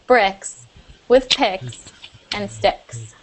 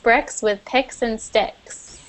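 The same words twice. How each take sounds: First: It is said at a slower, careful pace. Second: It is said at a normal, quicker pace.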